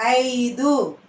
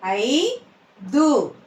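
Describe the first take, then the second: First: Said in the usual way. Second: "ఐదు" split, rising ఐ, then దు; "ఐదు" in two separate syllables. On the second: Shown as a demonstration. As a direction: slowly sound out "ఐదు" with a gap. Teacher sounds out syllables.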